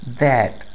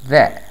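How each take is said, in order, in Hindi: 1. t की आवाज़ साफ़ बोली जाती है। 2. t की आवाज़ गिराई जाती है। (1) "न्यूट्रल एक्सेंट में" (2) "टी का लफ्ज़ नहीं बोला जाएगा"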